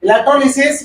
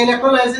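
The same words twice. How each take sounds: First: Electrolysis said as e-lek-tro-li-sis; short "li" in Electrolysis, not "lie"; alternative pronunciation. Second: Electrolysis said as e-lek-tro-LIE-sis; long "lie" in electrolysis, not short "li"; standard pronunciation. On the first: (Electrolysis को "इलेक्ट्रोलिसिस" बोलते हुए) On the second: (electrolysis को "इलेक्ट्रोलाइसिस" बोलते हुए) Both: Shown as a demonstration. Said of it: "कई लोग इलेक्ट्रोलिसिस भी बोलते हैं".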